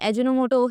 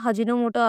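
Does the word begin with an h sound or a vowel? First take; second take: vowel; h sound. First: The word begins directly with a vowel. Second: The word begins with an h sound. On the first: The speaker calls it right. "अजिनोमोटो हे शब्द बरोबर आहे" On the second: The speaker calls it wrong. "लोकं उच्चारताना हजिनोमोटो असं म्हणतात. पण हा शब्द चुकीचा आहे"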